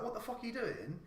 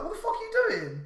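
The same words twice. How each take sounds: First: Said in the usual way. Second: High, laughing mock yell; half-laughing as he retells yelling at him; retold yell. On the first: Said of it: "I was like". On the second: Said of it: "I fucking was like".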